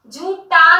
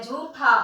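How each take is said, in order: First: झूठा with an unaspirated ṭ, jhūṭa, said louder; wrong form said aloud. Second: झूठा with an aspirated ṭh at the end, jhūṭha, said lower and softer; correct pronunciation. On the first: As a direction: sound out the misspelling झूठा for the pupils. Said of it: "झूठा नहीं होता". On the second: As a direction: model the correct ending of झूठा. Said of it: "ठा होता है". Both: Shown as a demonstration.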